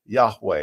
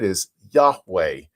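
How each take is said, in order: First: Said in the usual way. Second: Yahweh said slowly and clearly, YAH-weh; Yahweh pronounced. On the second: Shown as a demonstration. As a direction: lay out Yahweh slowly for the congregation. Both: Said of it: "we sort of say it in the English way".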